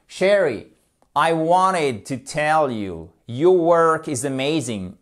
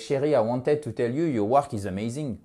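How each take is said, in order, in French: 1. La phrase sonne vive et enthousiaste. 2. La phrase sonne plate et désintéressée.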